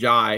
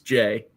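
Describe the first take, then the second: First: The vowel sounds like the one in 'eye'. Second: The vowel sounds like the one in 'day'. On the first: The speaker calls it wrong. "I spent like a couple weeks calling him Jai" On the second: The speaker calls it right. "It's Jay"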